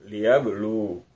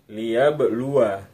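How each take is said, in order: First: The final waw ends with no vowel. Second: The final waw carries a short vowel. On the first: The reader stops at this word. "bila wakaf wawunya dibaca sukun" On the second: The reading continues into the next word. "bila wasal wawunya dibaca pendek"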